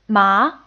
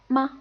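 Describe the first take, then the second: First: The pitch rises from mid to high. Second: The syllable is short, light and unstressed. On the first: "a rising tone" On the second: "pretty much the unstressed word"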